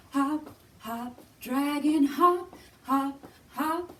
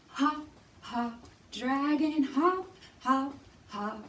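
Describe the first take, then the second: No difference in how they are said.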